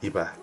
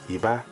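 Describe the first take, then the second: First: Both syllables have a low tone. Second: A low tone followed by a high tone. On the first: It means the number two. "The word for two has a low and a low tone" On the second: It means underpants. "the word for underpants has a low and a high tone"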